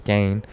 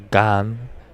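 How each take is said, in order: First: The vowel sounds like the one in 'rain'. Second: The vowel sounds like the one in 'ran'. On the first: This is the version commentators use. "I've heard commentators say Gain" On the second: This is the version one announcer uses. "I heard John Anik say Gan"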